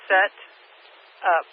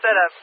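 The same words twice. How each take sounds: First: It is said as two separate words. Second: It is run together as one word.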